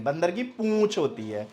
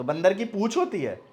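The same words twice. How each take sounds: First: Correcting with पूँछ nasalized and held; nasal vowel. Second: Said in the usual way. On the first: Shown as a demonstration. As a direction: send the ऊ of पूँछ through the nose. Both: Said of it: "नहीं".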